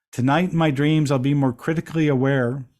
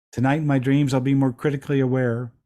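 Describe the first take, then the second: Both takes have the same delivery.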